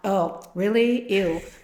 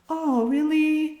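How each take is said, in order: First: It sounds disgusted and put off. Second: It sounds light and playful.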